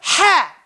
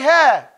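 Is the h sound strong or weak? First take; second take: strong; weak. First: The h sound is strong and forceful. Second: The h sound is soft and weak. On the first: The speaker calls it right. "you have to have that ha. Say ha" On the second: The speaker calls it wrong. "it cannot sound like ha"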